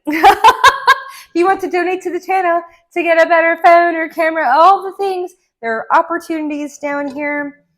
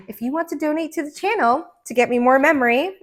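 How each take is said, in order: First: Laughing, higher, louder donation pitch; laughing plea. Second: Said in the usual way. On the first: Shown as a demonstration. Reader jokingly asks viewers to donate, laughing. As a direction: giggle through the cheeky ask. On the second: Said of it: "laughs, repeats".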